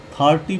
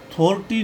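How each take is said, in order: First: थर्टी with a long AA, "thaar-tee"; थर्टी, first vowel opened to AA. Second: थर्टी with a long O, "thor-tee"; थर्टी, first vowel rounded to O. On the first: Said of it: "आ होगा". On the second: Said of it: "थर्टी नहीं पढ़ेंगे". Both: Shown as a demonstration.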